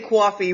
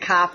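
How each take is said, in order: First: Coffee is said in a New York accent. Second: Coffee is said in a Boston accent.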